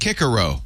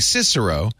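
First: The name uses the newly adopted classical pronunciation. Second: The name uses the older classroom Latin pronunciation. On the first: This is the pronunciation officially adopted later. "they've decided it's Cicero" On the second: This is how it was said before the change. "we were saying Cicero"

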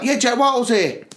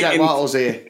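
First: It is said in an upbeat, lively way. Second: It is said in a flat, less lively way.

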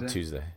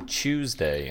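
First: It begins with a plain 't' sound. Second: It begins with a 'ch' sound.

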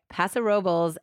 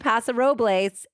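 First: The name is pronounced with English sounds. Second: The name is pronounced with Spanish sounds. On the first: This is how local residents say the name. "the town actually goes by Paso Robles" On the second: This is how the name is said in the original language. "if you do the correct Spanish pronunciation"

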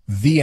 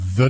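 First: It is said 'thee' with a long vowel. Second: It is said 'thuh' with a short vowel. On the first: "the if it starts with a vowel" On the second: "the if the next word starts with a consonant"

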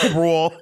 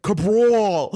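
First: The name is said with a plain American accent. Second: The name is said with a strong Italian accent. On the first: "that's not how I speak" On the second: "she's like saying as Italian as possible"

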